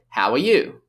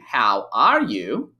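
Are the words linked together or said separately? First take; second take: linked; separate. First: The words are linked together smoothly. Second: Each word is said separately, without linking.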